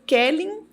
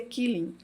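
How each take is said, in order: First: The first vowel sounds like 'e' in 'bed'. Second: The first vowel sounds like 'ee' in 'see'. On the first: The speaker calls it right. "Hoje eu aprendi que é Kelling" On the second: The speaker calls it wrong. "Eu dizia Killing"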